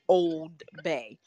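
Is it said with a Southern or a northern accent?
Southern. It is said with a Southern accent.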